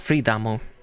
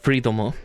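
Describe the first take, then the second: First: The middle syllable has an 'a' vowel. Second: The middle syllable has an 'o' vowel. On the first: The speaker calls it right. "It would be uh, freedamo" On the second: The speaker calls it wrong. "it wouldn't be freedomo"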